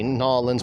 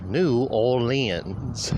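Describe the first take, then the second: First: The name is squeezed into a short, clipped form. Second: The name is said in its full, longer form. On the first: This is how outsiders imagine locals say it. The speaker calls it wrong. "I'm only saying Nolans for those of you out there who seem to think that that is how us from Louisiana pronounce it" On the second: This is how locals actually say it. The speaker calls it right. "We do indeed pronounce it New Orleans"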